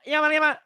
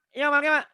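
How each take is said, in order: Both takes have the same delivery.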